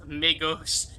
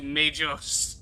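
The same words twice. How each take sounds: First: "Magos" as MAY-gohs, with a hard G; hard G pronunciation. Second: "Majos" as MAY-johs, with a J sound; soft G pronunciation. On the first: Streamer arguing the proper form, "Magos" with hard G. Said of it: "it should be May". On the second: Streamer showing the rejected form, "Majos" with a J sound. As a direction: say "Majos" with g as in gem, drawn out. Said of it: "as opposed to". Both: Shown as a demonstration.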